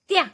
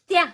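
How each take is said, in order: First: The two sounds are blended into one syllable. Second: The same.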